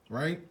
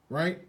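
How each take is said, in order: The two takes are said the same way.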